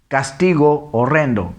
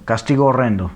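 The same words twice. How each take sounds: First: Deliberate two-word reading; read separately. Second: Quicker, words run together; one smooth unbroken reading; vowels joined. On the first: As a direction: keep both o sounds distinct. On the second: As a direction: merge the o sounds in "castigo horrendo". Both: Shown as a demonstration. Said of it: "se une".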